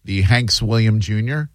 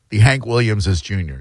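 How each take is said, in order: First: Said in the usual way. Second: "the Hank Williamses Junior" with the plural on Williamses, not on Hanks; right way to say it. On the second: Shown as a demonstration. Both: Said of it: "That would be the right way to say that".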